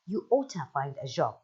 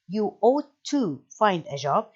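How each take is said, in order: First: It is run together, with 'ought to' as 'oughta'. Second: It is slow, with 'ought' and 'to' separate. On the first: The speaker calls it right. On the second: The speaker calls it wrong. "in a slowly way"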